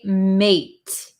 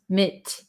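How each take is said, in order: First: The vowel is a long 'ay' sound. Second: The vowel is a short 'i' sound. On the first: The speaker calls it wrong. "We don't say mate" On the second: The speaker calls it right.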